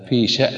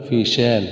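First: The hamza is said as a silent glottal stop. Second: The hamza is replaced by a long vowel. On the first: The speaker calls it right. "بسكون الهمز" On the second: The speaker calls it wrong. "بإبدال الهمزة"

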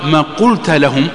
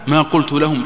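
First: The t of the verb carries an a vowel. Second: The t of the verb carries a u vowel. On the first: The speaking is attributed to God. "نسبها إلى من؟ أصبحت لله عز وجل" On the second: The speaker says he himself spoke. "التاء هذه تاء الفاعل"

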